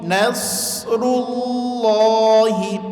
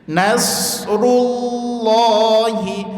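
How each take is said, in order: No difference in how they are said.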